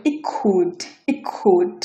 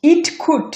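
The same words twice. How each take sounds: First: "it could" as ik-could, T never released; glottal stop. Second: Said in the usual way. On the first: Shown as a demonstration. Teacher drops T sound, "it could" as ik-could. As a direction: swallow the T in "it could". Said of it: "ঠ sound কোনোভাবে pronounce হচ্ছে না". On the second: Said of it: "এটা হচ্ছে হবে".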